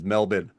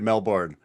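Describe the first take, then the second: First: Melbourne is pronounced the way Australians say it. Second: Melbourne is pronounced the way Australians do not. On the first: The speaker calls it right. "it's Melbourne" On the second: The speaker calls it wrong. "You guys don't say Melbourne"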